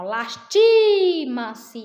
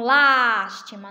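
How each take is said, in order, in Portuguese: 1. A tônica está na sílaba do meio. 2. A tônica está na primeira sílaba. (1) "é o ti, ó, no, no meio" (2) "lástima no início"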